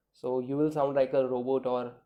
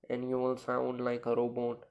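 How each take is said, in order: First: Said in the usual way. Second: Speaking with nose held shut; pinched nose. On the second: Shown as a demonstration. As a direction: pinch your nostrils and talk through it. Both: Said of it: "Just obstruct your nose like this".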